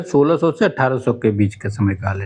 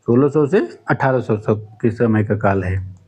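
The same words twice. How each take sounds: First: Said in the usual way. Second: Slower, deliberate repeat for note-taking; dictating slowly. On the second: Shown as a demonstration. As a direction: say it again slowly so students can write.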